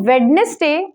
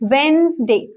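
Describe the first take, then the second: First: The d sound in the middle is pronounced. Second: The d sound in the middle is silent. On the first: The speaker calls it wrong. "वेडनेसडे is the wrong pronunciation" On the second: The speaker calls it right. "Correct pronunciation is वेंसडे ... डी का sound नहीं रखते हैं, it is silent"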